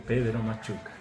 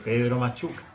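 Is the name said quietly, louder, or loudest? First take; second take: quietly; louder. First: It is said in a very quiet voice. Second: It is said somewhat louder.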